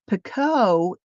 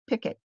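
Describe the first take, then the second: First: The word ends with an 'oh' sound. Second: The word ends with an 'it' sound. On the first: This is the British way of saying it. "the, uh, British, um, pronunciation" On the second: This is the American way of saying it. "they also pronounce it in America"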